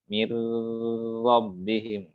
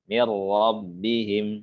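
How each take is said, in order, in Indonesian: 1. Bunyi R ganda ditahan lama. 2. Bunyi R ganda lewat cepat, tidak ditahan. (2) "Tetap langsung aja"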